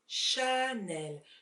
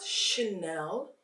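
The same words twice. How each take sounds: First: The A vowel is clearly heard. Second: The A vowel is weak and hard to hear. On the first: The speaker calls it right. "we really need to hear the A" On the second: The speaker calls it wrong. "it is not Chanel"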